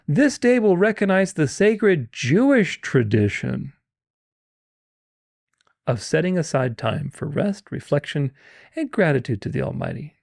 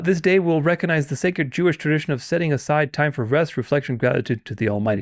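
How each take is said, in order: First: It is read very slowly. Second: It is read at a normal speed.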